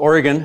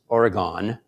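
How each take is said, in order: First: It is said the way local natives say it. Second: It is said the way Easterners say it. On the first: "us natives say it that way"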